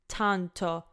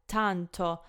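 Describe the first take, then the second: First: The T is said with a strong air puff. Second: The same.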